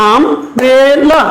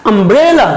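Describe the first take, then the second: First: Umbrella chopped into um, bre, la; a pause after each syllable of Umbrella, as if clapping it out. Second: Umbrella joined as one word, middle syllable stretched; whole-word umbrella with a rise and fall on the second syllable; stress on BRE. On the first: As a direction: say Umbrella very slowly in three separate beats. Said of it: "ক্লেপ দিয়ে সিলেবলটা বলো". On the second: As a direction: run umbrella together and lean on "bre". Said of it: "এখানে আমরা একটু জোর দিয়ে বলবো". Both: Shown as a demonstration.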